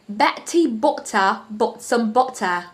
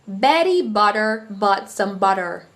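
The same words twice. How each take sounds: First: It is spoken in a British accent. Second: It is spoken in an American accent. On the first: "For the British accent, ... the T needs to be pronounced, but this time around with a force. The R sound is no longer pronounced" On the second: "saying this in an American accent"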